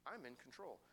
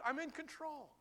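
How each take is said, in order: First: Quiet calm promise; hushed. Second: High, ringing declaration; triumphant promise; emphatic. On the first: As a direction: say it gently, almost under the breath. God's words, hushed take. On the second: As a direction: proclaim it boldly. God's words, high emphatic take. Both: Acted.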